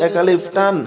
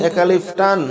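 No difference in how they are said.

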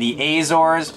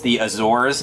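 First: The first A is a hard A sound. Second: The first A is not a hard A sound. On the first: The speaker calls it wrong. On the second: The speaker calls it right.

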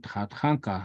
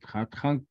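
First: The word ends with a full final vowel. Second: The word ends without its final vowel. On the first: The speaker calls it wrong. "You don't say Tatanka" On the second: The speaker calls it right. "fast speech in Lakota ... you say Tatank Gnashkia"

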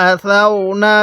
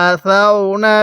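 The two takes are said the same way.

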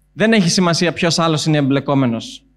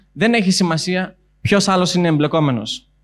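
The two takes are said the same way.

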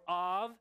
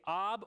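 First: The word ends with a V sound. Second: The word ends with a B sound. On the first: "you can either pronounce it with a B or a V" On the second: "you can either pronounce it with a B or a V"

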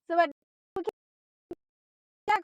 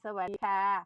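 First: The greeting is mumbled with little mouth opening. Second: The greeting is said clearly with the mouth wide. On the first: The speaker comes across badly. The speaker calls it wrong. "อันนี้ไม่เอานะคะเพื่อนๆค่ะ" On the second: The speaker comes across well. The speaker calls it right. "เราต้องพูดสวัสดีค่ะ"

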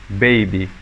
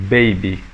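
The two takes are said the same way.

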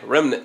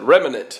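First: The word is said with its normal syllables. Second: The word is said with extra syllables added. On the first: The speaker calls it right. "I said it right" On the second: The speaker calls it wrong. "I just like to add extra syllables"

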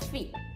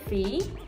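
First: The pitch falls at the end. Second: The pitch rises at the end. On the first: It is a statement that the item is available. "那店员就会回答你说fee，就是有的。" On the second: It asks whether the item is available. "就是一个问句，语调会上扬。"

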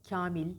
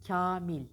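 Both takes have the same delivery.

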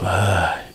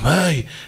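First: It is a pleased sigh of relief. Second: It is a pained cry of discomfort.

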